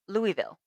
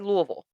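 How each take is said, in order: First: The word is said fully and clearly. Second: The word is said mumbled and slurred together. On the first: "an acceptable term, I don't use it" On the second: "Like you got a mouthful of marbles"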